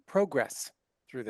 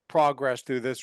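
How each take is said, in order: First: It is said in a Canadian accent. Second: It is said in a plain American accent.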